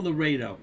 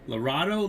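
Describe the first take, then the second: First: "Laredo" said la-RAY-do, falling at the end; "Laredo" with the middle as "ray", tune dropping; settling the name. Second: "Laredo" said la-RAH-do, rising at the end; "Laredo" with the middle as "rah", tune lifting; testing the name. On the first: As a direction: land "Laredo" as la-RAY-do, sure of it. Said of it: "It's L A R E D O". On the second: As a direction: try "Laredo" with an ah, la-RAH-do, as a question. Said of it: "I said I got it wrong". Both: Shown as a demonstration.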